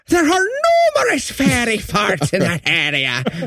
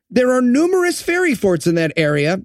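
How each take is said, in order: First: It is said in a put-on character voice. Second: It is said without the intended character voice. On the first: The speaker calls it right. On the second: The speaker calls it wrong.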